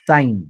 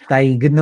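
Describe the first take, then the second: First: The word is said without a G sound. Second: The word is said with a G sound. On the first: The speaker calls it right. "जसं साईन" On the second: The speaker calls it wrong. "साईग्न असं नाही म्हणत"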